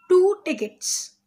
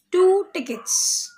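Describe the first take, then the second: First: Slow, high, TWO stressed again. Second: Two tickets, slow and high, TWO stressed. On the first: Teacher repeating "Two" for the children, slow and high. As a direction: press "Two" in "Two tickets" slowly. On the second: Teacher stressing "two" to the class, slow and high. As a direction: lean hard on "two" in "two tickets". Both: Shown as a demonstration.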